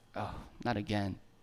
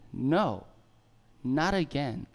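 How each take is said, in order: First: It sounds weary and defeated. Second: It sounds firm and confident.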